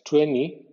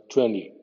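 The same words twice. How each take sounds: First: "twenty" with the T dropped, slow, like "tweny"; wrong "twenty". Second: Right "twenty", N plus D; correct "twenty". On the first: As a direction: drag out a "tweny" with no T. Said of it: "no es N I". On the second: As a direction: say "twenty" as "twendy". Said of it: "es N más D inglesa". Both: Shown as a demonstration.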